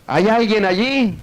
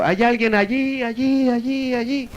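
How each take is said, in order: First: High, drawn-out call into a cave; acted shout. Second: High echo fading away; cave echo. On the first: Man calling into a dark cave, mock shout. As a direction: call out slowly, pitched high. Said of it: "él gritó". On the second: Retold or imitated. Cave answering the man, imitated fading echo. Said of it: "la cueva contestó el eco".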